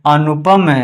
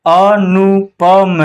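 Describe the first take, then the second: First: Said in the usual way. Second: "अनुपम" very slow in separate syllables. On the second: Shown as a demonstration. Teacher spelling out an example, "अनुपम" slow and split. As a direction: sound out "अनुपम" piece by piece.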